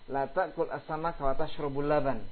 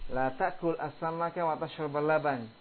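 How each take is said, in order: First: The verb tashrab ends with a u vowel. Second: The verb tashrab ends with an a vowel. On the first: Eating fish is forbidden but drinking milk is allowed. "Menjadi dhammah" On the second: Eating fish and drinking milk together is forbidden. "Sekarang diganti fathah"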